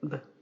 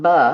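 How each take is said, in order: First: The B sound is clipped short with no vowel. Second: The B sound has a vowel added after it. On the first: The speaker calls it right. "This one also needs to be clipped" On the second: The speaker calls it wrong. "It is not B"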